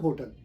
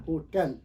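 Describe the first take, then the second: First: "होटल" with a weak schwa, HO-tul; wrong pronunciation. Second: "होटल" with an open e, ho-TEL; correct pronunciation. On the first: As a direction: swallow the last vowel of होटल. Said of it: "not होटल". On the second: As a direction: stretch the second syllable, "tel", in होटल. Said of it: "Actually ये word है होटल". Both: Shown as a demonstration.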